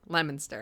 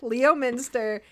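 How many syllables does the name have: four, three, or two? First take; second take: three; four. First: The name is said with three syllables. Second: The name is said with four syllables. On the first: The speaker calls it right. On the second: The speaker calls it wrong.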